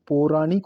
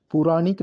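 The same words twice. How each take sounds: First: पौराणिक opening on long "po"; correct form. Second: पुराणिक opening on short u; wrong form. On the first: Teacher giving the right form: पौराणिक with long "po". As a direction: say "po-raa-nik" for पौराणिक. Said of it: "होता है". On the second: Teacher rejecting the wrong form: पुराणिक with "pu". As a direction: say "pu-raa-nik" for पुराणिक. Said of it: "नहीं". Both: Shown as a demonstration.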